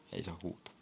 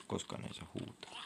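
First: Said in the usual way. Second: Hushed whisper, softer. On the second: Shown as a demonstration. Gamer reminding himself not to shout, whispered. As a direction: whisper it so you don't break the rule. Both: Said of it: "Ei huudeta".

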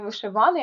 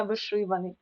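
First: Вишиваний stressed on the third syllable ВА; wrong stress on ВА. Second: Вишиваний stressed on the second syllable ШИ. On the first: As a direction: say вишиВАний, leaning on ВА. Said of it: "Не вишиваний". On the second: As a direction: say виШИваний, leaning on ШИ. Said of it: "а вишиваний". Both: Shown as a demonstration.

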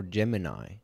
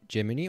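First: "Gemini" said as JEM-uh-nigh; Gemini ending "-nigh". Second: "Gemini" said as JEM-uh-nee; Gemini ending "-nee". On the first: Video host weighing two pronunciations, "Gemini" with an "eye" ending. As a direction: end "Gemini" on a long "eye" sound. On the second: Video host weighing two pronunciations, "Gemini" with an "ee" ending. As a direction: end "Gemini" on an "ee" sound. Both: Shown as a demonstration. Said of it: "Or is it Gemini or Gemini?".

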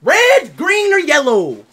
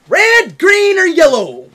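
First: High, slow call-out; loud, slow announcing. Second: High, loud, drawn-out call; louder, slow announcing. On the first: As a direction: announce the options slowly and loudly. Poll announced to chat. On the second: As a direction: belt out the choices slowly. Poll repeated louder. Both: Real, not acted.

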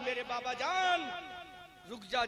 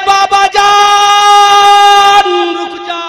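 First: Much softer, barely-there call; faint weak plea. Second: Very slow, drawn-out high wail; anguished cry. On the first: Sick daughter calls her father back, faint plea. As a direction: say میرے بابا جان رک جا almost under the breath. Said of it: "آواز آئی". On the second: Daughter cries out to stop her father, loud wail. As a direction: stretch out بابا جان as a long high cry. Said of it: "اندر سے آواز آئی". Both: Acted.

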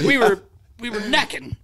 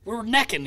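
First: Higher, stammering Roger voice; a higher, halting Roger voice; imitating Roger. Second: Higher, sheepish Roger voice; a lightly voiced, higher sheepish Roger; imitating Roger. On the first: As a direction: stumble over it like a flustered old coach. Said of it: "He was like". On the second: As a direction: say it like a shy older coach. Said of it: "He goes".

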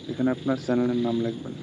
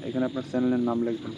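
No difference in how they are said.

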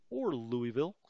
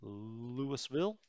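First: "Louisville" said as loo-ee-ville, rising; alternate Louisville. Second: "Louisville" drawn out slowly as loo-uh-ville. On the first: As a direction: give the other reading "Louisville", loo-ee-ville. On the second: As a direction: say "Louisville" slow and rising. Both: Shown as a demonstration. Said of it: "We'll just say the U N S".

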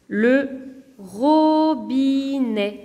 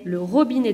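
First: "robinet" very slow: ro, bi, net, after a pause; split into syllables. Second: Said in the usual way. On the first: Shown as a demonstration. Teacher giving three-syllable examples, "robinet" split in three. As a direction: hold each of the three beats of "robinet". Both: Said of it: "trois autres exemples".

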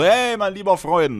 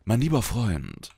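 First: Higher, slow and hearty mein lieber Freund; friendly greeting. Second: Slow, softer, threatening mein lieber Freund; menacing. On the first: Greeting a good friend, hearty and friendly. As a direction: greet a buddy warmly. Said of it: "gibst dann auch". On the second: To the friend who hit on your girlfriend, quietly threatening. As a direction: warn him quietly with a glare in the voice. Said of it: "Dann guckst du nur anders an". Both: Retold or imitated.

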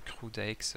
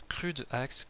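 First: "crude axe" said quickly and softer, half swallowed; shrugging it off; giving up mumble. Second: "crude axe" said very slowly and deliberately in English; carefully trying the English name. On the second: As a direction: spell out "crude axe" word by word. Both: Shown as a demonstration. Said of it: "bon, Osef".

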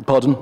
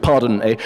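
First: Said in the usual way. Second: Pardon mocked with a knowing sneer; wolf picks up the word Pardon to tease; Pardon, tossed back with mild scorn. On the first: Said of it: "Pardon, eh? Trying to pass". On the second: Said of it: "Trying to pass as a chimney sweep".

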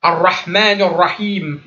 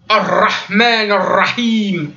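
First: Ar-Rahman Ar-Rahim slowly, with a very light, discreet r; barely touch the r; slow gentle recitation. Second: Ar-Rahman Ar-Rahim slowly, with a heavy, forced r; mock the over-accented r; slow exaggerated recitation; overstressed ra. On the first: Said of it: "C'est très léger". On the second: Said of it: "mais qui vont trop l'accentuer". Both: Shown as a demonstration.

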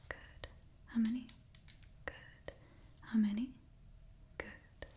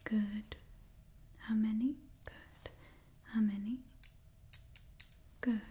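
The two takes are said the same way.

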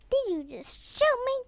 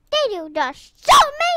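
First: Gasp, then question in disbelief; startled question at normal volume; taken aback. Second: High, loud indignant challenge; rising, affronted shout; outraged question. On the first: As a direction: catch your breath and ask. First reaction to being shot. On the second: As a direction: demand it loudly, punching SHOOT. Repeats, outraged at being shot. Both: Real, not acted.

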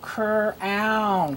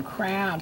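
First: "crown" split as cr-own; slowly blended "crown" in two chunks; sounding out. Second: Said in the usual way. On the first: Shown as a demonstration. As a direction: separate CR from a long OWN in "crown". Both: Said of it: "say the ow words with me".

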